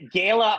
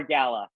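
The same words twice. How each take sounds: First: First syllable of "Gala" rhymes with "day"; long-A pronunciation. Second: "gala" as GAL-uh; first syllable of "gala" like "gal"; short-A pronunciation. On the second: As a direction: say "gala" with the vowel of "cat". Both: Shown as a demonstration. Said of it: "pronounce five words".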